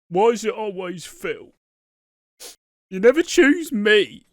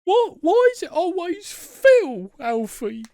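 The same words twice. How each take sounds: First: High-pitched mock protest, rising louder; acted jealous complaint. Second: Loud, very high kiddie voice, drawn out; Milo from the Tweenies. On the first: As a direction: imitate a wounded, pleading complaint. Acting out Keanu's jealous complaint. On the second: Acted. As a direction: whine like a cartoon little boy. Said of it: "You sound like Milo from the Tweenies".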